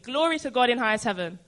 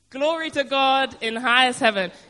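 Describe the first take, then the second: First: It is said with ordinary, moderate energy. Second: It is said louder, with more energy. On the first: "Say it with me" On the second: "A bit more oomph"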